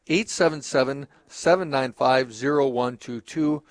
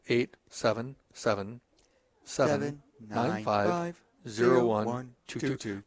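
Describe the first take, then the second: First: The number is read at normal speed. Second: The number is read slowly.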